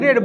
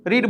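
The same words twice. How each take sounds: First: "રેડ" with a short e; past-tense pronunciation. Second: "રીડ" with a long ee; present-tense pronunciation. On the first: Teacher showing students the past form, "રેડ" with short e. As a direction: say "રેડ" like the colour red. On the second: Teacher showing students how the verb changes, "રીડ" with long ee. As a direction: say "રીડ" to rhyme with need. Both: Shown as a demonstration. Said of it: "પ્રોનાઉન્સિએશનલી થોડીક changing આવી શકે".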